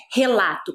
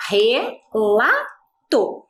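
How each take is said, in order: First: Said in the usual way. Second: RELATO split into three slow, separate syllables. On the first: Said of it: "descobrimos que a palavra". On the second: Shown as a demonstration. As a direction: say relato as re, la, to with clear gaps. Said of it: "nós dividimos lá". (relato dito devagar, sílaba por sílaba)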